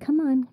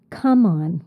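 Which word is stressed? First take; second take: on; come. First: The stress is on the second word. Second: The stress is on the first word. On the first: It coaxes or persuades someone to come. "as a verb" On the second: It names something used as bait to attract someone. "When I put that stress on the word come"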